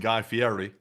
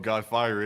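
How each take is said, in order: First: The surname does not sound like fiery. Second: The surname sounds like the English word fiery. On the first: It is the name he actually uses. "a lot more menacing sounding than Guy Fieri" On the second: It sounds more menacing. "it sound cooler if he called himself Guy Fiery"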